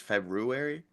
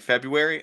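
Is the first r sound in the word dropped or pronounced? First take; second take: pronounced; dropped. First: The first r sound is pronounced. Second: The first r sound is dropped. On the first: The speaker calls it right. "is when I learned it was February" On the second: The speaker calls it wrong. "I grew up saying February"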